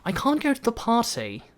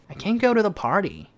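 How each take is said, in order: First: It is spoken in a British accent. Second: It is spoken in an American accent. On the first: "영국식 같은 경우에는" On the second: "미국식 같은 경우에는"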